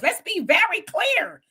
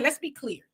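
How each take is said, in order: First: Slow, drawn-out words with higher, swooping pitch; hammed-up politician voice, stretching VERY CLEAR; Kamala impression. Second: Said in the usual way. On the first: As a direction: do a mock-deliberate politician. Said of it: "In my Kamala voice". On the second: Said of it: "In my Kamala voice, let's be very clear".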